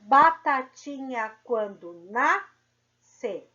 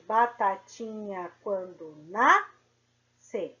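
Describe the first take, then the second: First: Slow, louder, syllables drawn out; slow syllable count. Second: Slow, syllables drawn out; slow syllable count. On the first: Teacher counting syllables of a children's rhyme, slow. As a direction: tap out each syllable. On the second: Teacher recounting syllables of the rhyme, slow. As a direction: count each syllable again. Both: Shown as a demonstration. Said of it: "Então, vamos lá".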